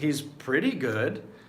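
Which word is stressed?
pretty. The emphasis falls on the word pretty. He is only reasonably good. "if you put the emphasis on pretty"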